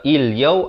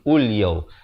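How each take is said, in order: First: The word begins with an i vowel. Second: The word begins with a u vowel. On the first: "Jangan baca il-yaw" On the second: "ataupun ul-yaw"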